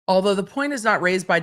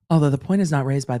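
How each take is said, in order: First: It is read in the speaker's normal voice. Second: It is read in a special put-on voice. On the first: The speaker calls it wrong. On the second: The speaker calls it right.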